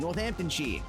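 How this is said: It is said in an English accent. "with the accent, like that's how you're supposed to say it"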